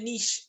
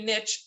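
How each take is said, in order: First: The word gets its newer, current pronunciation. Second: The word gets its older, old-fashioned pronunciation. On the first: This is how people say it now. "people say niche now" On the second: This is the older way of saying it. "I'm old school, I say niche"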